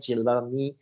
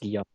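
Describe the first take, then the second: First: The double L is said as an L sound. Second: The double L is said as a Y sound. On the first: The speaker calls it wrong. "everybody say Guillaume, Guillaume. They try to do the double L" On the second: The speaker calls it right. "But it's yo. When you have a double L in French, it's yo"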